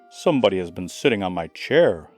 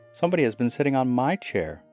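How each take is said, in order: First: It is said loudly, as Father Bear. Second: It is said less loudly, as Mother Bear.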